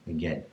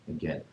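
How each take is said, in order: Both takes have the same delivery.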